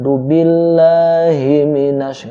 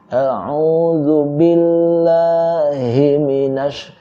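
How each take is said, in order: First: The first word is clipped and run together. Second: Each word is said fully and distinctly. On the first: The speaker calls it wrong. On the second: The speaker calls it right.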